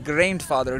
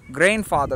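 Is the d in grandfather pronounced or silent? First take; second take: pronounced; silent. First: The d sound in the word is pronounced. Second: The d sound in the word is silent. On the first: The speaker calls it wrong. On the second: The speaker calls it right. "D silent"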